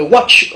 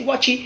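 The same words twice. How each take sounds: First: "watch" in one syllable; English pronunciation. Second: "watchy" with an added final i; Godié pronunciation. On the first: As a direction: end "watch" on ch. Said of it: "en anglais". (« watch » à l'anglaise, une syllabe) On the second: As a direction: open it out as wa-tchi. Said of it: "mais en gaudier". (« watchy » à la godié, prononcé wa-tchi) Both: Shown as a demonstration.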